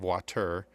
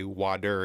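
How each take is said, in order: First: It is said with a standard accent. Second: It is said with a Midwestern accent.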